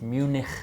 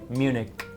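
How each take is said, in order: First: It has a German pronunciation with a rolling throat sound. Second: It has a plain English pronunciation with a k sound. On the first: The speaker calls it wrong. "they would pronounce it Munich" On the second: The speaker calls it right. "in English just say Munich"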